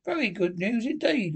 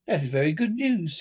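First: Doubtful, high swoop that falls away; dubious. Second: Grave, even-pitched approval. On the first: Rat unconvinced of Toad's reform, dubious. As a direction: agree with open doubt in the voice. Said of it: "observed the Rat dubiously". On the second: Rat and Mole answering Badger's news, gravely. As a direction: receive it soberly. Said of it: "said the Rat and Mole gravely". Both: A narrator's reading.

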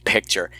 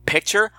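First: Said in the usual way. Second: "Picture?" repeated with a rising, surprised tune; surprised echo. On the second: Real, not acted. Reviewer catching her own word choice, surprised rising "Picture?". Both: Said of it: "I just said picture".

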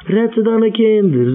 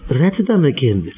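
First: Rette deine Kinder said higher and slowly, leaning on deine; pleading repeat, deine stressed; slow emphatic repeat. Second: Said in the usual way. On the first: Acted. Repeated appeal to parents.

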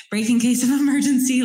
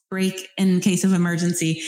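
First: Breaks into a laugh mid-phrase, higher and louder. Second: Said in the usual way. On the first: Real, not acted. Host repeats her own phrase and laughs at it. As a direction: giggle through the repeated phrase.

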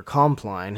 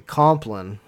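First: Compline said as KOM-plyne; long-vowel pronunciation. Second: Compline said as KOM-plin; short-vowel pronunciation. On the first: Offering the other way to pronounce the prayer's name, Compline as KOM-plyne. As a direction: say Compline with a long i in the second syllable, like "line". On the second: Offering one way to pronounce the prayer's name, Compline as KOM-plin. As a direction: say Compline with a short, weak second syllable, "plin". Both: Shown as a demonstration. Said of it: "however you wanna pronounce it".

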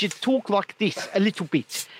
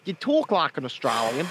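First: Australian turned into South African accent. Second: Lower-pitched demo of an Australian accent. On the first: Host showing the finished accent, put-on South African. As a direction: demonstrate shortened South African speech. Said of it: "but what you do". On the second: Host showing the starting accent, put-on Australian. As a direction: talk like an Australian, rising at the end. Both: Shown as a demonstration.

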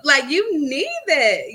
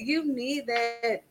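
First: Higher, louder and slowed on you need that; urgent, drawn-out insistence; emphatic. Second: Much softer, slow "You need that"; hushed, slowed echo of the point; soft repeat. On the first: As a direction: press hard on "you need that". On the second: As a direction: let "You need that" sink in quietly. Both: Real, not acted.

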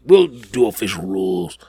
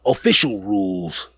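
First: Whispered aside. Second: Said in the usual way. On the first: Acted. Host teasing viewers about the rules, whispered. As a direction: breathe it out with no voice.

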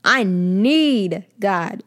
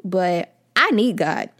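First: Need stretched long and louder, very slow; emphatic, slow I NEED God; stress on NEED. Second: Need leaned on, slow and loud; slow, weighty I need God; stress on need. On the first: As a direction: drag out the word need with weight. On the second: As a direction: lean into the word need. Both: Shown as a demonstration. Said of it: "Emphasis on the need".

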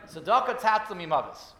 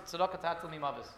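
First: The verse said again, louder and firm; firm insistent repeat. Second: Said in the usual way. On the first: Retold or imitated. The rabbi repeats the verse to the dying man, louder and insistent. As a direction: press the verse home with weight.

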